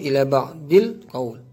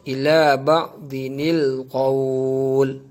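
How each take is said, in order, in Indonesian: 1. Disambung menjadi 'dil' sebelum qawl. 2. Disambung menjadi 'dinil' sebelum qawl. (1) "Tapi cara baca itu ialah salah" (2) "cara bacaan yang betul"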